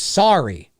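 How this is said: It is said with an American accent.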